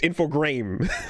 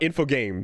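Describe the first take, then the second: First: The name ends sounding like 'grames'. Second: The name ends sounding like 'games'. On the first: The speaker calls it right. "I say Grames because it's G R A M E S" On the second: The speaker calls it wrong. "it's not games"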